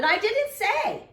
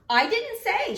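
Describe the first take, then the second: First: High loud shout, drawn out slowly with a rise; shouted again. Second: Put-on high, loud girl's shout. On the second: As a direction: shout it out in protest. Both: A narrator's reading. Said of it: "she shouted".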